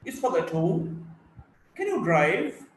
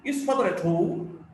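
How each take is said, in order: First: Is father at home? rising on home, with a light laugh; teacher demo of a rising yes-no question. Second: Is father at home? with the voice rising on home; a yes-no question rising on home. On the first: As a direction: let home climb upward. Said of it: "tone is on home". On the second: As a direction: lift the pitch up on home at the end. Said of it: "Yes, no questions". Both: Shown as a demonstration.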